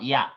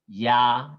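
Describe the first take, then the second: First: The vowel is kept short. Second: The vowel is held long. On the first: The speaker calls it wrong. "not ya" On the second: The speaker calls it right. "it's a longer vowel"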